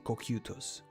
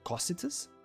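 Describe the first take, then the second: First: The name is said with Japanese syllables, starting 'koh-kyu'. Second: The name is said as an English reading, 'co-sigh'. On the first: "in Japanese, they say Kokyutos" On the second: "I don't know if it's Cositus"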